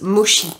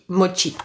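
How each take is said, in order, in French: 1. Ça se prononce à la française, comme d'habitude. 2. Ça se prononce à la japonaise, comme à l'origine. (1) "les Français déjà de base disent mochi" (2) "Techniquement, je crois, ... ça se dit mochi"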